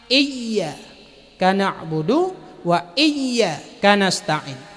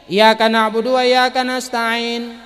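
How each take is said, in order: First: The y sound in iyyaka is held doubled. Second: The y sound in iyyaka is short, single. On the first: It is to God that worship and help are addressed. The speaker calls it right. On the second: It is to the sun that worship and help are addressed. The speaker calls it wrong.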